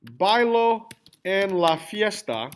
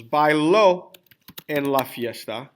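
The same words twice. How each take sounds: First: Slowly, BAI-lo, no accent on the O of Bailo; stress on first syllable. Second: Bailo as bai-LÓ, the last syllable punched; stress on final syllable. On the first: Teacher showing class the present tense, Bailo stressed on BAI. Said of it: "Yeah, the accent". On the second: Teacher showing class the second sentence, Bailo stressed on the O. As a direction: lean on the accented O ending Bailo. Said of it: "when I add the accent". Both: Shown as a demonstration.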